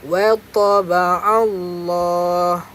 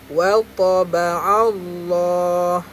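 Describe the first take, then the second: No difference in how they are said.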